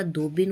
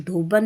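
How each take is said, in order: First: धोबिन ending in bin; correct pronunciation. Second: धोबन ending in ban; wrong pronunciation. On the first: Teacher correcting the word, धोबिन ending in bin. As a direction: use short i in धोबिन. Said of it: "होता है". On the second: Teacher showing the error, धोबन ending in ban. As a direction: use a in the last syllable of धोबन. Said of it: "नहीं होता". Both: Shown as a demonstration.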